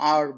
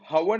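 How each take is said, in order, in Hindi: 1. यह शब्द स्वर की आवाज़ से शुरू होता है। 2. यह शब्द h की आवाज़ से शुरू होता है। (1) "एन आर बोलते हैं हम" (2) "हवर नहीं बोलते"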